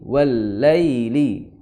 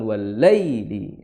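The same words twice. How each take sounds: First: The ya sound is softened and reduced. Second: The ya sound is pushed out forcefully. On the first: The speaker calls it right. "tidak terlalu menghentak-hentakan seperti itu" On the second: The speaker calls it wrong. "bukan wallaili"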